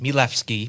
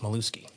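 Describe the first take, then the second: First: The w in the name sounds like an f. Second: The w in the name sounds like a w. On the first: This is the original Polish form of the name. "In Poland, it's pronounced Mielewski. W's are F's" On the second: This is the later Americanized form of the name. "now it's just Mielewski"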